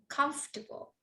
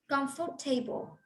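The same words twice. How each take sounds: First: The word is said with three syllables. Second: The word is said with four syllables. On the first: The speaker calls it right. "We have three syllables. ... We say comfortable" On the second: The speaker calls it wrong. "We don't say"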